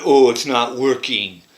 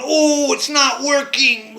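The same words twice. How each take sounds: First: Said in the usual way. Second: High, slow, dismayed cry of a painted figure. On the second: Retold or imitated. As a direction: let the little man wail that it failed. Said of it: "is going".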